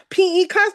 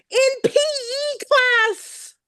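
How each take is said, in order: First: Said in the usual way. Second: Slow, higher, stretched out; drawn-out high. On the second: Real, not acted. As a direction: let the words hang high and slow. Recalling playground beatings, emotional.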